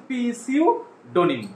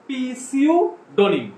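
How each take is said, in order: No difference in how they are said.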